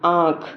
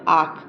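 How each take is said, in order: First: The vowel is said nasalized. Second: The vowel is said plain, without nasalization. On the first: The speaker calls it right. "अगर इस पे चंद्र बिंदु लगा देंगे" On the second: The speaker calls it wrong. "अगर हम इसको खाली पढ़ेंगे"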